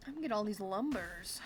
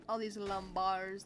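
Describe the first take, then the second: First: "lumbers" said with an unstressed UR ending; "lumbers" ending in a weak "berz"; plain pronunciation. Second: "lumbars" ending in a full BARZ; "lumbars" with an open AR ending; punning pronunciation. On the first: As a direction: say "lumbers" like the word for timber. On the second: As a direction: say "lumbars" to rhyme with bars. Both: Shown as a demonstration. Wordplay on lumbers and lumbars.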